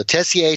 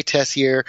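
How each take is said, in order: First: "Tessier" as TESS-ee-ay, no r; French pronunciation. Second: "Tessier" as TESS-ee-er; dad's New England pronunciation. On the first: [name] contrasts two ways, "Tessier" with French ay ending. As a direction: end "Tessier" on ay. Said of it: "the more common French way of saying it". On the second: [name] contrasts two ways, "Tessier" with final r. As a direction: end "Tessier" on a plain r. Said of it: "my dad says Tessier". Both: Shown as a demonstration.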